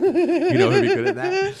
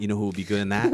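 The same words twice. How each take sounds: First: Much higher, louder, laughing eager plea; squealing with eager laughter; excited pitch. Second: Said in the usual way. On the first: Retold or imitated. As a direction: beg him to cast your pick, giggling. Pitching a casting idea to teacher.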